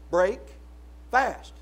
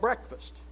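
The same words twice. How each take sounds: First: "Break ... fast" as two separate words with a pause between; split word. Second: Said in the usual way. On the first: Shown as a demonstration. Preacher showing what breakfast means, slowly split word. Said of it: "we need to slow down".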